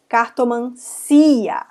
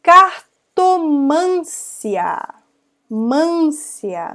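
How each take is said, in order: First: Cartomancia slow, beat on CI; stress on CI. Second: Cartomância drawn out, MÂN high and long; stress on MÂN. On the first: Teacher correcting herself, Cartomancia stressed on a separate CI. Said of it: "a sílaba tônica tá aí no si". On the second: Teacher mistaking the strong syllable, Cartomância stressed on MÂN. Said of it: "a sílaba mais forte". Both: Shown as a demonstration.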